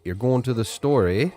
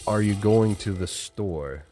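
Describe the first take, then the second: First: Higher, louder Canadian "You're going to the store, eh?" with eh tacked on; playful Canadian accent; Canadian question. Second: Said in the usual way. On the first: Shown as a demonstration. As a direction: turn a statement into a Canadian question with eh. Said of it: "Or you could say". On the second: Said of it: "normally in English, we say".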